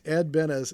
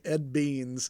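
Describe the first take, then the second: First: The surname is said with two syllables. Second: The surname is said as one syllable, like 'beans'. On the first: This is how the artist's name is normally said. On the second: This is how a customer said the name.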